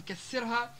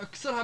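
First: Said in the usual way. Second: اكسرها with k run into s; unvowelled first consonant. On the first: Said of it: "بدل من كسرها". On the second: Shown as a demonstration. Teacher showing dialect form, اكسرها with no first vowel. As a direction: say اكسرها as ksirha. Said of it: "إسكان الحرف الأول".

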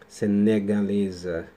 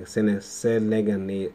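First: "Senegalesa" said slowly and deliberately, every syllable right; careful correct try. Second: "selegane-" stumbled, syllables swapped, slow and broken; tropeçando no nome. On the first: ("Senegalesa" pronunciado devagar e com cuidado) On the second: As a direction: trip over "sene-, selegane-", cutting it off. ("selegane-" gaguejado, sílabas trocadas) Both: Real, not acted. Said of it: "ai, eu não consigo falar esse nome".

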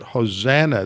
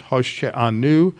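First: Hosanna said the English way, ho-ZAN-na; plain English Hosanna; anglicized Hosanna. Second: Hoshe'anu in the Hebrew form, ho-she-A-nu. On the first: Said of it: "That is the anglicized word". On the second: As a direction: give Hoshe'anu its Hebrew sounds. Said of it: "but it's Hoshe'anu". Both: Shown as a demonstration.

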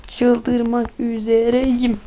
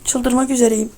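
First: Very slow, stretched syllable by syllable; slow-motion frustration; drawn-out exasperation. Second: Said in the usual way. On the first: Real, not acted. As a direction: drag out every word, about to lose it.

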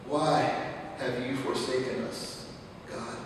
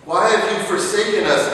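First: Much softer, sunk down, almost spent; preacher asking God quietly after the outcry; soft plea. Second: Loud, high cry of why to God; preacher pleading loudly with God, anguished; loud plea. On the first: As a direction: let the question fall to a hush. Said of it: "soft plea to God". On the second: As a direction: hurl the question upward. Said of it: "pleading cry to God". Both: Acted.

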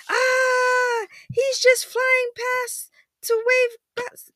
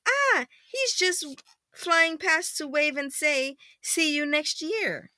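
First: Loud, very high mock scream; hammed-up fright. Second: Milder second reading. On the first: Frightened children watching spaceship dive, mock shriek. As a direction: shriek it slowly in storybook panic. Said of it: "The children shake with fear". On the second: Acted. Parent rereading flying past line, high and gentler. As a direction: start high, ease down into storytelling.

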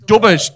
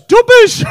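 First: Said in the usual way. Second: Much higher, louder squeal of disbelief; delighted exclamation. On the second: Real, not acted. Comic echoes an audience member's hometown nickname, delighted squeal. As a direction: squeal it out high and loud.

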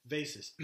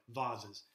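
First: "vases" said VAY-siz; everyday pronunciation. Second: "vases" said VAH-ziz; corrected posh pronunciation. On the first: Teacher reads the story aloud, "vases" in the everyday VAY-siz way. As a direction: say "vases" to rhyme with faces. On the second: Teacher jokingly corrects the reading, "vases" as VAH-ziz. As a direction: say "vases" with a long AH and a Z. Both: Shown as a demonstration.

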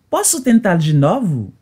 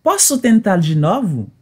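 No difference in how they are said.

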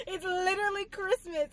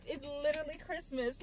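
First: "It's literally Christmas" squealed much higher, half crying with joy; excited squeal. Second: Said in the usual way. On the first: Real, not acted. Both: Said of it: "I'm so excited".

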